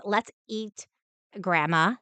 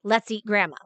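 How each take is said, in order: First: "Let's eat" then a pause, then "grandma" with a rise; "Let's eat ... grandma," with a comma pause and a rising grandma; pause before grandma. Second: "Let's eat grandma" run together with no pause and a falling end; "Let's eat grandma" in one breath, falling. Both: Shown as a demonstration.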